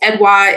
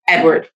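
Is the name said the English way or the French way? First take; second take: French; English. First: The name is said with French pronunciation. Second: The name is said like English Edward. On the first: This is the real family name. "it's a Haitian, uh, French last name" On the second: It avoids people struggling with the name. "growing up, I used to just say, like, Edward"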